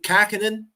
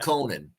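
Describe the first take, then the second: First: The first vowel sounds like 'ah'. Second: The first vowel sounds like 'oh'. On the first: The speaker calls it right. "That's how you say it" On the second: The speaker calls it wrong. "It's not"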